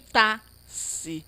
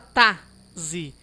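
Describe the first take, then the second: First: The x is said as an s sound. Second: The x is said as a z sound. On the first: "E nem tá, si" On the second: "Não fala tá, zi"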